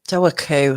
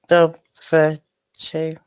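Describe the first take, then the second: First: It has no 'v' sound and ends with 'koo'. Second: It has a 'v' sound and ends with 'choo'. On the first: The speaker calls it right. "That's what I meant to say" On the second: The speaker calls it wrong. "I'm gonna guess it's Dover, Doverchu"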